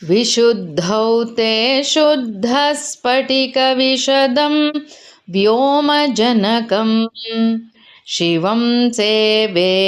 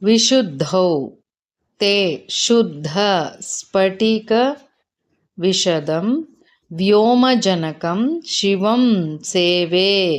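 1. ಪದಗಳನ್ನು ಒಟ್ಟಿಗೆ ಸೇರಿಸಿ, ಒಂದೇ ಸಲ ಹರಿಯುವಂತೆ ಹೇಳ್ತಾರೆ. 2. ಪ್ರತಿ ಪದವನ್ನೂ ಪ್ರತ್ಯೇಕವಾಗಿ ಹೇಳ್ತಾರೆ, ಪದಗಳ ನಡುವೆ ವಿರಾಮ ಇರುತ್ತೆ. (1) "ಅದನ್ನು ಕೂಡಿಸಿ ಹೇಳಿದಾಗ ಹೇಗಿರುತ್ತೆ ನೋಡೋಣ" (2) "ಪದಗಳು ಹೀಗಿದಾವೆ"

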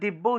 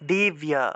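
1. ব ধ্বনিটি দ্বিত্ব, এর পরে য-ফলা নেই। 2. ব-এর পরে স্পষ্ট য-ফলা আছে। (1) "এভাবে দিব্য উচ্চারণ করে ফেলি" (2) "এটা উচ্চারণ হবে দিব্যা"

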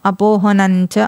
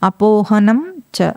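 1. చివరి అనునాసికం 'చ'లో కలిసిపోతుంది. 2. చివరి అనునాసికం 'చ' ముందు పూర్తిగా పలుకబడుతుంది.

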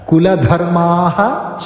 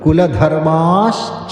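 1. 'ca'ക്ക് മുൻപ് ശ്വാസം ചേർന്ന 'h' ശബ്ദമുണ്ട്. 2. 'ca'ക്ക് മുൻപ് 'sh' ശബ്ദമുണ്ട്. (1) "കുലധർമാഃ അവിടെ വിസർഗം ഉണ്ടായിരുന്നു" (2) "വിസർഗം മാറി അവിടെ ഷ് വരും"

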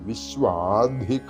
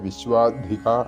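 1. വിശ്വ എന്നതിന് ശേഷമുള്ള സ്വരം നീട്ടി ഉച്ചരിക്കുന്നു. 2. വിശ്വ എന്നതിന് ശേഷമുള്ള സ്വരം ഹ്രസ്വമായി നിലനിർത്തുന്നു. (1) "നീട്ടിയിട്ട് ജപിക്കണം" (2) "നേരത്തെ പറഞ്ഞതുപോലെ ജപിക്കാൻ പാടില്ല"

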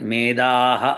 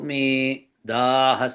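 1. రెండు పదాలు గ్యాప్ లేకుండా కలిసి పలుకుతాయి. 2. రెండు పదాల మధ్య చిన్న గ్యాప్ ఉంటుంది. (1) "మేధాహ అని చదవకూడదు, రెండు కలపకూడదు" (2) "ఇలా చదవాలి ... కొద్దిగా గ్యాప్ ఇవ్వాలి ఇక్కడ"

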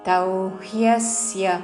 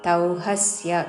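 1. h తర్వాత y ధ్వని స్పష్టంగా వినిపిస్తుంది. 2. h తర్వాత నేరుగా ఒక అచ్చు వస్తుంది. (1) "హాకి యావత్తు చక్కగా వినపడాలి" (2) "తౌహస్య కాదు"

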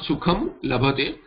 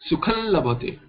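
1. पहला शब्द बंद म ध्वनि पर समाप्त होता है। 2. पहला शब्द एक नासिक्य ध्वनि पर समाप्त होता है जो l में मिल जाती है। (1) "not sukham labhate" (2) "The lakara nasalization will be sukhan labhate"

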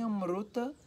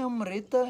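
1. Uma vogal u segue o r. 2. Uma vogal i segue o r. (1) "o norte é U" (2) "nem Amrita e nem Amruta são... o sul é I"

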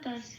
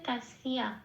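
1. বাংলা ধাঁচে উচ্চারিত, কোনো 'ya' glide নেই। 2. সংস্কৃত ধাঁচে উচ্চারিত, 'ya' গ্লাইড সহ। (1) "এবার এটা আমি বাংলায় বললাম" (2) "তাহলে এখানে উচ্চারণটা হচ্ছে তাসিয়া, এরকম।"

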